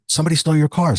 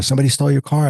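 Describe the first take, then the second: First: A son's mock alarm, pitched up; excited retold alarm. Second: Repeated mock alarm, a bit louder; retold alarm, pressing harder; alarmed son again. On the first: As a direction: blurt it like a kid who just found the car gone. Son alarmed at missing car. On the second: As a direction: insist it again, still pitched up and alarmed. Son repeats alarm about car.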